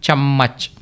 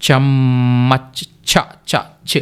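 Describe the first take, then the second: First: Said in the usual way. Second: చమ్మచ్ slowly, ending on a bare చ్ with no vowel; final consonant drill. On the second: Shown as a demonstration. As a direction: stretch చమ్మచ్ and clip the last చ్. (చమ్మచ్ నెమ్మదిగా, చివర పొల్లు చ్ తో) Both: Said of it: "చ్ అని పలకాలి కదా".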